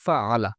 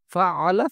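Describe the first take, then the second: First: ফা আলা said level and settled; ফা আলা again, lower and even, to show it sounds the same; second take. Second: ফা আলা said with the আলা part pitched up; ফা আলা with a lifted second half, as the first of two takes. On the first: Teacher gives the matching second take, level. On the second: Teacher voices the first take for students, raised. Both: Shown as a demonstration. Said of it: "এই দুটো উচ্চারণ করেন তো".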